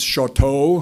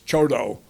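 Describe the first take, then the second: First: The name is given a French-style pronunciation. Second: The name is given the local Montana pronunciation. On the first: The speaker calls it wrong. "For those of you who speak French, it looks like it's Chateau" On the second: The speaker calls it right. "that's not how they pronounce it in Montana. It's Choteau"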